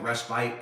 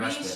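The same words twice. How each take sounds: First: The word has its European pronunciation. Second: The word has its American pronunciation. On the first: "it's more like respite in Europe" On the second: "respite here in this country"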